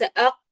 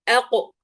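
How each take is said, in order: First: The final q stops without any bounce. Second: The final q is released with a slight bounce. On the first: The speaker calls it wrong. "ليس أق" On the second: The speaker calls it right. "الآن عند حرف القاف المقلقل حنأخذ مرة أخرى أق أق"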